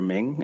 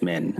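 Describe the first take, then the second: First: The name ends in an ng sound. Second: The name ends in an n sound. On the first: The speaker calls it wrong. "Often I hear Ming, ... where in M I and H do you hear G?" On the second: The speaker calls it right. "It's it's Minh"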